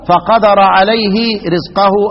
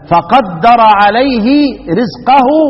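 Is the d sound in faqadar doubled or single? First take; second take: single; doubled. First: The d sound is single and short. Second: The d sound is doubled and held. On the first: "الباقون" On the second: "مثقلا"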